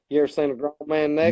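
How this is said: It is said in a Southern US accent.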